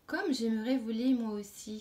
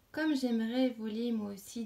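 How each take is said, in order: First: A mild eager exclamation, a touch louder on Comme; exclaimed wish. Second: Said in the usual way. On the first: Acted. Caterpillar exclaims her wish to the sparrow, mildly excited. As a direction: lift the wish out with light excitement. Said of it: "s'exclama la chenille". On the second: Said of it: "dit la chenille".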